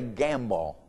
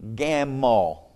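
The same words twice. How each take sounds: First: The word is said with a clear B sound. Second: The word is said with no B sound. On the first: "he didn't say gamble" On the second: "There was no B in it when he pronounced it"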